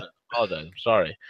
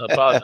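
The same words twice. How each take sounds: First: Soft and sheepish; quietly sheepish apology. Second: Said in the usual way. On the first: Real, not acted.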